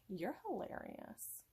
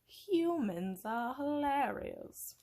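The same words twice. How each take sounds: First: Said in the usual way. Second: Slow, loud, higher menacing villain. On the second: Acted. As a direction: gloat slowly like a Disney villain. Mock villain monologue.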